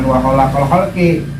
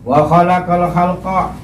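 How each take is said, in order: First: The last word ends with an 'i' vowel. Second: The last word ends with an 'a' vowel. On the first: The speaker calls it wrong. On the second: The speaker calls it right. "sama lagi itu"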